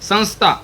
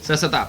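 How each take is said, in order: First: A nasal and an 'nsth' cluster join the syllables. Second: Plain syllables with no nasal or consonant cluster. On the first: The speaker calls it right. "हा original शब्द आहे, सवर टिंब आहे" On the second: The speaker calls it wrong. "आपण जर normal शब्द वाढला ससता"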